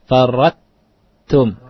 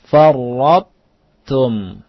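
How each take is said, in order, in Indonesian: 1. Bunyi t itu tipis dan biasa. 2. Bunyi t itu tebal dan tegas. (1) "Bukan istifal" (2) "tapi isti'la"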